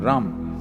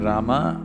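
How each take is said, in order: First: The final syllable is cut off. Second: The final syllable is fully pronounced. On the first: "they'll say Ram. The language has the habit of cutting off the last syllable" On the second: "If you say Rama"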